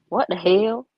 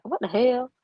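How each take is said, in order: First: Louder, punchy mock "What the hell?"; imitating Cindy. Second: Said in the usual way. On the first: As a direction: do Cindy's version of the exclamation. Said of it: "here's Cindy's". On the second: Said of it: "That's how I say".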